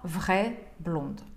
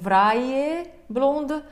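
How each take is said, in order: First: The vowel in 'vraie' is read as one sound. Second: The vowel in 'vraie' is read as two sounds. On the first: The speaker calls it right. "а «vraie blonde»" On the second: The speaker calls it wrong. "Не «vraie blonde»"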